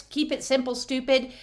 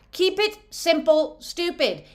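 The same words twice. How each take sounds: First: Said in the usual way. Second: Mock teasing. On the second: Shown as a demonstration. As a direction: keep it simple, stupid, in a higher, teasing put-on voice. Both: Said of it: "It said kiss".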